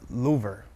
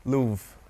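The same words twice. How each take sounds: First: "Louvre" as LOO-ver, in two syllables; R sounded. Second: "Louvre" as one syllable, LOOV; silent R. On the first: You didn't even pronounce the R. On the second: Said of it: "you didn't even pronounce the R". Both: Shown as a demonstration.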